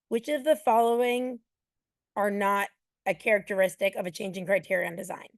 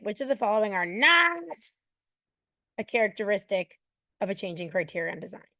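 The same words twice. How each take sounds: First: The word 'not' gets no special emphasis. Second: The word 'not' is strongly and harshly emphasized. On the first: The speaker calls it wrong. "You don't read it like that" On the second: The speaker calls it right. "read that word not in the most aversive tone you could do it in"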